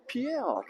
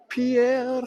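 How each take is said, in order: First: Said in the usual way. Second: Pierre said the French way, drawn out at the end; French-style Pierre. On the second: Shown as a demonstration. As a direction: give Pierre a French flourish, higher and louder. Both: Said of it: "there's only one Pierre".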